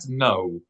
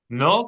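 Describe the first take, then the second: First: An o vowel gliding into a w sound. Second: A pure o vowel with no w glide. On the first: The speaker calls it wrong. "not no" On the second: The speaker calls it right. "No and not no"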